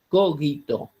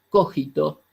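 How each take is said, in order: First: The g is a hard, stopped sound. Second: The g is a throaty, rasping sound. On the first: The speaker calls it right. "se pronuncia como si fuera cogito, porque es latín" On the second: The speaker calls it wrong. "no se pronuncia como la pronunciaríamos nosotros"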